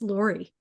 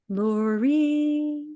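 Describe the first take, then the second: First: The name is said short and plainly. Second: The name is drawn out in a songlike way. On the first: It is the everyday form used with other people. "it sounds like when I say it to, to the people in, in regular reality" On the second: It is a calling from beyond this world. "in the altered states, I hear it as Lori"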